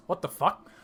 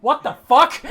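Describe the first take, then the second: First: Taken aback, a little higher; first double-take, still held in; startled disbelief. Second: High, yelled disbelief; loud shocked outburst. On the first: Colm reacts to the echo. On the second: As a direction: blurt it out in shock at full volume. Colm repeats it, escalating. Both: Acted.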